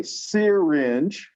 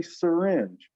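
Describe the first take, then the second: First: Syringe said slowly with a clear "seer" at the start; over-pronounce syringe as SEER-inge; full first vowel in syringe. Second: Said in the usual way. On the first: Shown as a demonstration. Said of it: "I could say syringe". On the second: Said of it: "We all say syringe".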